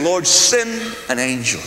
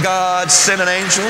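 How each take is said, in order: First: Slow, earnest prayer to the Lord; slow reverent plea; hushed prayer. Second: Slowish earnest prayer; praying. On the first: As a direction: plead slowly for an angel. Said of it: "I'm saying". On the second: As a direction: ask God for an angel. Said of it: "So I'm praying". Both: Retold or imitated.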